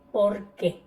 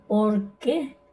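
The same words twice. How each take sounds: First: "¿Por qué?" with the weight on "Por", falling away on "qué"; unaccented qué. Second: "¿Por qué?" with the weight on "qué", rising; stress on qué. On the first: Teacher showing the word without tilde, "qué" left unstressed and falling. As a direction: stress "Por" and let "qué" drop. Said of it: "sin tilde". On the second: Teacher showing the accented word to students, stress on "qué". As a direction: lean on "qué" and lift it at the end. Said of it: "Con tilde en la E". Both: Shown as a demonstration.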